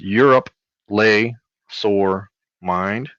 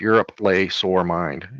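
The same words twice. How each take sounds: First: The phrase is said slowly, word by word. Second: The phrase is said fast and flat. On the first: "if you read it out loud" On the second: "If you read it flat, fast"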